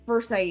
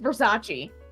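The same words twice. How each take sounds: First: It is read as spelled, final e silent. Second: The final e is said as a syllable. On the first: This is how the spelling looks. The speaker calls it wrong. "R S A C E, Versace" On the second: This is the real pronunciation. The speaker calls it right. "but it's Versace"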